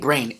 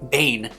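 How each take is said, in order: First: The name is said with an r after b. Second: The name is said with no r after b. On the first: The speaker calls it wrong. "I always say Brain instead of Bane" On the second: The speaker calls it right. "it's Shuggie Bane"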